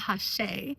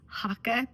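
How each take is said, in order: First: It has a ch sound and ends in ay. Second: The middle consonant is a hard k sound. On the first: This is how it may be said in the UK. "If you're in the U K, you might call it Hache" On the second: This is how it is often said in the States. "I oftentimes call this Haka because I'm in the States"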